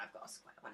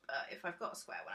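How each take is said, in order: First: "I've got a square one." dropped much lower and softer, voiceless; low mock aside. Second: Said in the usual way. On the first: Shown as a demonstration. Vlogger mutters the repeat to viewers in a low hushed mock voice.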